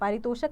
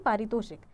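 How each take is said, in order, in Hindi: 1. शब्द 'shak' ध्वनि से खत्म होता है। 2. शब्द 'shik' ध्वनि से खत्म होता है।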